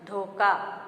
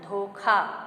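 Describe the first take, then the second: First: धोखा with unaspirated k, "dhoka"; mispronunciation. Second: धोखा with aspirated kh, "dho-khaa"; correct pronunciation. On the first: Teacher showing the wrong word, mispronounced with plain k. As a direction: say धोखा wrongly as "dho-kaa", no puff on the k. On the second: Teacher correcting the word, aspirated kh. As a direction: put a puff on the kh of धोखा. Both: Shown as a demonstration. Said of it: "जबकि शुद्ध शब्द हमारा है".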